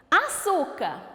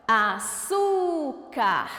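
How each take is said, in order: First: Said in the usual way. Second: "Açúcar" slowly, with a long "çú"; stressed syllable stretched. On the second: Shown as a demonstration. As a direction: call out "Açúcar", holding the middle syllable. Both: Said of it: "O su tá até acentuada".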